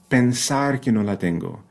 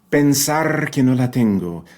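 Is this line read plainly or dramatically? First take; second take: plainly; dramatically. First: It is read in a plain, neutral way. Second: It is read in a heavily dramatic, emotional way.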